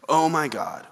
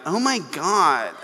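First: It is said in a plain, ordinary voice. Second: It is said in a Californian accent.

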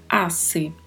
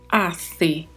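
First: The middle consonant is a hissing s sound. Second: The middle consonant is a lisped th sound. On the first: "com a sonoridade do S" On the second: "na Espanha costuma se falar com a língua entre os dentes"

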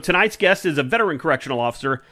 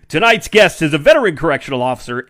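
First: It is said in an ordinary speaking voice. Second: It is said in a put-on radio announcer voice.

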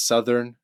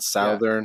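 First: It is said the American way. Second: It is said the Canadian way. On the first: The speaker calls it right. "you go to the States and you learn that it's Southern" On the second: The speaker calls it wrong. "not Southern"

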